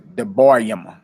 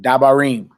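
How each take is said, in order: First: The first vowel is a short reduced 'e'. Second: The first vowel is a full 'a' sound. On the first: "without the vowel" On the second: "but dabarim"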